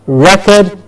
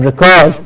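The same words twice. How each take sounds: First: REcord, as "REK-erd"; stress on first syllable. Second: ReCORD, as "rih-KORD"; stress on second syllable. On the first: Teacher contrasting word pairs, front-stressed REcord. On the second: Teacher contrasting word pairs, back-stressed reCORD. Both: Shown as a demonstration. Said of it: "Do you hear the difference?".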